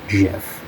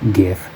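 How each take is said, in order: First: It begins with a soft G sound. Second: It begins with a hard G sound. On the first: The speaker calls it wrong. "not GIF" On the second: The speaker calls it right. "which is a hard G, it is GIF"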